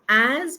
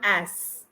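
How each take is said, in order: First: The word ends with a soft z sound. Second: The word ends with a hissing s sound. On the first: The speaker calls it right. "pronunciation is with slight z" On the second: The speaker calls it wrong. "not as"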